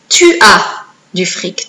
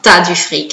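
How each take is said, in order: First: The words tu and as are said separately. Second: The words tu and as merge into one syllable.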